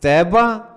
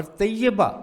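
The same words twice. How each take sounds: First: طیبہ said as "TAI-ba", two syllables, high and loud; Taiba, without shad. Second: طیبہ said as "tay-YA-ba", doubled y; Tayyiba, with shad. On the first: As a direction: say طیبہ as "taiba" with a single y glide. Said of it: "طیبہ کے معنی ہے مدینہ". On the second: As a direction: say طیبہ in three syllables with shad on the y. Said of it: "طیبہ کی یہ پر شد". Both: Shown as a demonstration.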